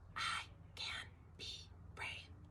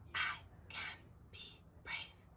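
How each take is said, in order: First: It is spoken in a whisper. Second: The same.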